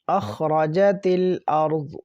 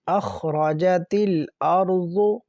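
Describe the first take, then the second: First: The last word ends on a bare consonant. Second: The last word ends with a short vowel.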